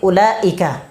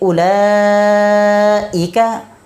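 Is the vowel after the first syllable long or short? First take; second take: short; long. First: The vowel is kept short. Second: The vowel is stretched long. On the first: The speaker calls it wrong. "मद किए बगैर ... तो ये बिल्कुल भी अच्छा नहीं लगता" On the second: The speaker calls it right. "जहाँ पर मद होता है"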